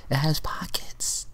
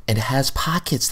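First: Breathy secret whisper of "It has pockets". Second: Said in the usual way. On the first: Acted. Host whispers the pockets detail to the viewers. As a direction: lean in and share it like a secret.

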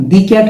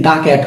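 First: "the cat" with the as "dee"; "thee" alternative. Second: "the cat" with the as open "daa"; "thuh" before consonant. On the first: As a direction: say "the" in "the cat" to rhyme with see. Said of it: "দি উচ্চারণ করতে পারবো". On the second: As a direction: say "the" in "the cat" as "duh". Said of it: "consonant থাকলে আমরা বলবো দা". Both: Shown as a demonstration.

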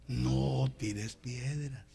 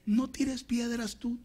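First: Very slow, softened, drawn-out words; calm restraint. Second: High-pitched, drawn-out caution; urgent warning. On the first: Preacher restraining a provoked believer, slow calm warning. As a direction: hold them back slowly and quietly. Repeats warning calmly, second take. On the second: Preacher warning believer not to retaliate, high urgent caution. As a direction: warn them off in a raised pitch. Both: Acted.

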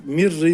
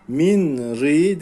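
First: Mir ri with the n merged into a doubled r; teacher showing the correct idgham; assimilated version. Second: Min ri with a clear separate n; teacher showing what not to do; wrong version. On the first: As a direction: blend Min ri into mir ri. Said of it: "yapacağız". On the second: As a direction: say Min ri with the n spoken, the mistake. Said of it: "değil". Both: Shown as a demonstration.

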